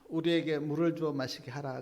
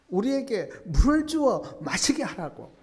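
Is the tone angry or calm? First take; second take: calm; angry. First: It is said quietly and calmly. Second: It is said in an angry tone. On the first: A simple request for water. "그냥 조용히" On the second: An angry demand that picks a quarrel. "아주 화가 난 말투로"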